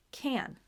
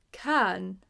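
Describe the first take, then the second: First: Can with the vowel raised toward eh through the nose; nasal eh A. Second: Can with a plain cat vowel; can said like cat, no nasal shift; flat short A. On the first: Teacher gives the right nasal vowel, nasal eh A. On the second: Teacher shows the wrong vowel to avoid, flat short A. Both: Shown as a demonstration.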